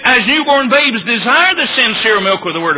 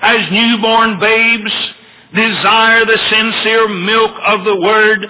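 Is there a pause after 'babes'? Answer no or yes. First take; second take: no; yes. First: There is no pause after 'babes'. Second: There is a pause after 'babes'. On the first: It compares the reader's desire to how babies desire milk. The speaker calls it wrong. "it didn't say" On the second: The newborn babes are the ones being addressed. The speaker calls it right. "It's set off in commas"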